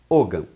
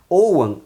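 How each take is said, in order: First: It is pronounced the Brazilian Portuguese way. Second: It is pronounced the Gaelic way. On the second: "a pronúncia correta de acordo com o gaélico"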